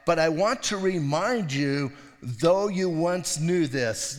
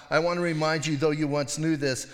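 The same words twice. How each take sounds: First: Slow reading. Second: Said in the usual way. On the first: Shown as a demonstration. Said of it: "he says in verse five". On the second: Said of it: "I think what he's talking about".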